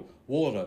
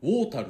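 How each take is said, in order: First: Standard English accent, no r sound at end. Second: Nepali accent, the r is pronounced 'ru'.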